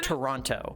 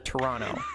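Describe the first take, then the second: First: Toronto is said the way non-Canadians say it. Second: Toronto is said the way Canadians say it. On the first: "We don't say Toronto" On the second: "as we say in Canada"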